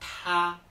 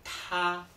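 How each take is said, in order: First: The t is said with a strong puff of air. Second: The same.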